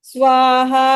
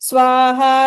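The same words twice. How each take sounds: Both takes have the same delivery.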